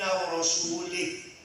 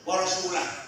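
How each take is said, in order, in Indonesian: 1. Kata terakhir berakhir dengan bunyi 'ih'. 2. Kata terakhir berakhir dengan bunyi 'ah'. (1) "Eh salah. Salah" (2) "Bahasa benar"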